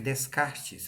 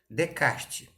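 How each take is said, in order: First: Every letter is sounded as it is written. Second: It is said with silent letters, French-style. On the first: This is how the name is written. "aquele que a gente escreve Descartes" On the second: This is how the name is really pronounced. "é a pronúncia correta"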